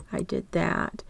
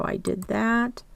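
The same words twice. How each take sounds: First: Soft unvoiced mutter repeating it; muttered to self. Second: Said in the usual way. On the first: Real, not acted. Teacher checking off a step under her breath, muttered. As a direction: say it under your breath, to yourself.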